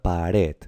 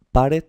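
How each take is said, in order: First: "pared" stressed on the last syllable, pa-RED; correct final stress. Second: "pared" stressed on PA, PÁ-red; wrong stress on first syllable. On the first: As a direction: lean on RED in "pared", stretched out. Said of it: "se pronuncia pared". ("pared" con la fuerza en la última sílaba: pa-RED) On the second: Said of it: "no, se pronuncia pared". ("pared" mal acentuada en la primera sílaba: PÁ-red) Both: Shown as a demonstration.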